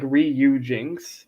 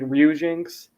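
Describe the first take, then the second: First: The syllables are said clearly and separately. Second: The syllables are run together and slurred. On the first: "It's like Ryujinx" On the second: "they kind of slur like they're like Ryujinx"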